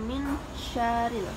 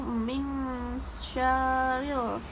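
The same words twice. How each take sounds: First: The n is said plainly without a hum. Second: The n is held with a long nasal hum. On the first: The speaker calls it wrong. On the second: The speaker calls it right. "wajib dengung atau mengembang"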